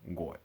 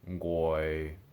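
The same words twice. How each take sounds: First: The pitch drops down until the voice cuts off. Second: The pitch stays low and level. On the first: "then as low falling tones" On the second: "first as low tones"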